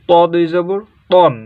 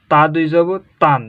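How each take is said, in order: First: তন with a full rounded o; heavy ton. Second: তান with an open clear a; light tan. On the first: Teacher reading the heavy letter. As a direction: round out তন heavily. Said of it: "পড়তে গেলে এটা হচ্ছে তন". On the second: Teacher reading the light letter. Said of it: "আর এটা হচ্ছে তান". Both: Shown as a demonstration.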